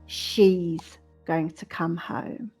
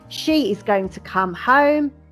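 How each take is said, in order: First: The subject and verb are said contracted. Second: The subject and verb are said in full. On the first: "the contracted form" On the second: "the long form"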